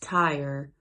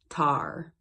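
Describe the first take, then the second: First: It is said in a standard accent. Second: It is said in an Appalachian accent, like tar.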